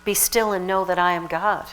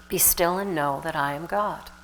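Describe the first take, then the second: First: Said in the usual way. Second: Soft meditative repeat. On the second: Shown as a demonstration. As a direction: let it sink in softly. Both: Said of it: "meditate on the idea of".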